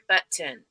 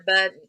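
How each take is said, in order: First: The middle consonant is a hard t sound. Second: The middle consonant is a d sound. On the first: "people do pronounce the hard the T's like button" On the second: "I'll put a D in there"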